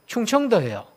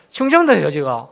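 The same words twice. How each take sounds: First: Said in the usual way. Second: 충청도예요 said again with a laugh, rising in pitch; laughing reveal. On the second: Shown as a demonstration. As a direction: laugh as you repeat 충청도예요. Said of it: "서프라이즈?". (웃으며 충청도예요)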